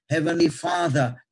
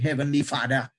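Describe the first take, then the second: First: The middle of Father has a clear th sound. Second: The middle of Father has no th sound. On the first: The speaker calls it right. "they are taught to pronounce their THs" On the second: The speaker calls it wrong. "You don't say Heavenly Father"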